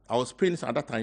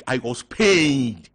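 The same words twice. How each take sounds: First: Said in the usual way. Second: Pained. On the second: Real, not acted. Pained at missing the funeral.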